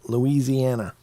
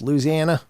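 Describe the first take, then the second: First: It is pronounced the way outsiders say it. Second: It is pronounced the way locals say it. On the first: The speaker lives far from the place. "If you're not, it's Louisiana" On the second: The speaker lives near the place. "if you're living close to there, it's Louisiana"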